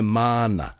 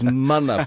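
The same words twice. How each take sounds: First: The first vowel is drawn out long. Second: The first vowel is kept short. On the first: The speaker calls it wrong. "as if there's a long A" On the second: The speaker calls it right. "The word is mana"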